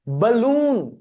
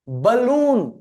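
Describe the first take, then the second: No difference in how they are said.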